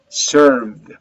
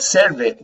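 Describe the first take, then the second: First: It is said as one short syllable. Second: An extra vowel is added after the v. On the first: The speaker calls it right. "you have to do it if you want to pronounce correctly in English" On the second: The speaker calls it wrong. "Not serve it"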